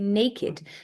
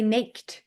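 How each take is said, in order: First: The ending is a separate 'id' syllable. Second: The ending is a plain 'd' sound. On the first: The speaker calls it right. "We say naked" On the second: The speaker calls it wrong. "We don't say naked"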